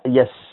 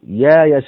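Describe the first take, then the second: First: A glottal stop comes before the y-sound. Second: No glottal stop; a long a-vowel instead. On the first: "ادي الهمزة حركة الياء وادي الياء حركة الهمزة" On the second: "ابدلها ألف، يبقى هتبقى هكذا"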